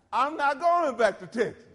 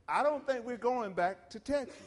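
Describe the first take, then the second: First: Much louder and higher, hammered refusal; emphatic no-way declaration. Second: Said in the usual way. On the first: Retold or imitated. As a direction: declare it like you mean it forever. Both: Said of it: "I said it a little more emphatically than that".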